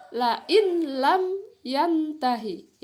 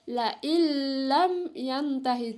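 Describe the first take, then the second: First: LA IN LAM YANTAHI with a clear n before lam; as written, unmerged. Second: LA IN LAM said "la illam", n turned into a long l; merged idgham reading. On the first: Teacher reading what is written for students, unmerged n. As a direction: read IN and LAM separately, the n sounded. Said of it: "ya, tertulis di situ". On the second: Teacher showing how it is read, n merged into l. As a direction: melt the n of IN into a held double l in LAM. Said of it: "nun sukunnya dimasukkan ke dalam huruf lam". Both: Shown as a demonstration.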